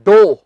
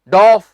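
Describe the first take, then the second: First: The word ends on a long o vowel. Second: The word ends with an aw vowel and f. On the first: The speaker calls it right. "इसका सही उच्चारण है डो" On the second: The speaker calls it wrong. "जी नहीं"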